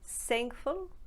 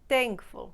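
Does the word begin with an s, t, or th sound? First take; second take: s; t. First: The word begins with an s sound. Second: The word begins with a t sound. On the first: "turn it into either an S" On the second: "or a T"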